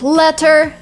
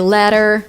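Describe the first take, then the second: First: The t is a clear t sound. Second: The t is a soft d-like flap. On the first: "And the same with letter" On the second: "Americans say letter"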